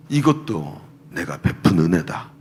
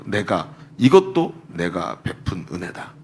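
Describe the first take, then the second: First: Low, slow, solemn divine voice; voice of God. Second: Low, slow, weighty divine voice; voice of God. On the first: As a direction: speak it slowly and low, as God. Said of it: "마음속에 얘기하시는 거예요". (낮고 느린 하나님의 음성) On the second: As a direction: lay each word down slowly and low, as God. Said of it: "딱 정확한 음성으로". (낮고 느리게 또박또박 하나님의 음성) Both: Retold or imitated.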